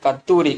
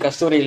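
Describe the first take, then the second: First: The middle consonants are a long t sound. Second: The middle consonants are an s then t. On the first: The speaker calls it right. "இது கத்தூரி" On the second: The speaker calls it wrong. "கஸ்தூரி இல்ல"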